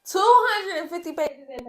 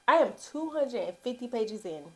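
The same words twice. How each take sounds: First: Loud whispered, higher exclaim; airy stage whisper, pitched up; breathy excited whisper. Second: Said in the usual way. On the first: Shown as a demonstration. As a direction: gasp out the page count in disbelief. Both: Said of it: "repeated as breathy exclaim".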